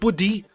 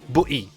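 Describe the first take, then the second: First: The middle consonant sounds like a D. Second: The middle T is silent, a glottal stop. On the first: The speaker calls it wrong. "not buddy" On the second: The speaker calls it right. "a T in the middle of the word, we we we we make it silent"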